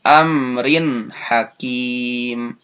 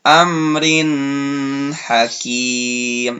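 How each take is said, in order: First: The nun sound is short and clear. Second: The nun sound is drawn out long. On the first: The speaker calls it right. "yang betul" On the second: The speaker calls it wrong. "itu salah. Kurang tepat"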